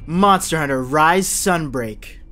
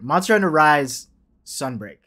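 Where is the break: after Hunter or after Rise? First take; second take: after Hunter; after Rise. First: The break comes after the word Hunter. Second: The break comes after the word Rise. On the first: The speaker calls it wrong. "I said it weird" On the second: The speaker calls it right. "There it is"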